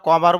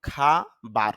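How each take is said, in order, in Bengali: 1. প্রথম স্বরধ্বনিটি 'o' এর মতো শোনায়। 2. প্রথম স্বরধ্বনিটি 'a' এর মতো শোনায়। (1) "যদিও আমরা কবার বলি" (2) "আইপিএতে খেয়াল করলে দেখা যায় খা বার"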